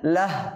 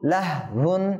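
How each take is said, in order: First: The word stops short after its first syllable. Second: The word ends with its full final syllable. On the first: The reader stops on this word. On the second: The reader continues without stopping.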